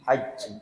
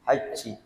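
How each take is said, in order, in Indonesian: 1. Bunyi j diikuti desis. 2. Bunyi j diikuti desis.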